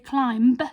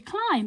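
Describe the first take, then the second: First: A B sound is heard at the end. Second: No B sound is heard at the end. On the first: The speaker calls it wrong. "we don't say climb" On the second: The speaker calls it right. "our B was a silent letter"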